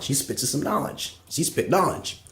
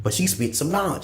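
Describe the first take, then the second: First: Softer and slower, sinking down on "She spits some knowledge"; quieter repeat. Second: Said in the usual way. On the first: Real, not acted. Grudging praise of Oprah repeated, softer and slower. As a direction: drop it soft and slow, as an aside.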